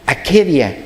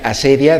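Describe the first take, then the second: First: The middle consonant is a k sound. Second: The middle consonant is an s sound. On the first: This is the original Greek form. "en el griego realmente se pronunciaría akedia" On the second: This is the usual Spanish form. "Le llaman asedia"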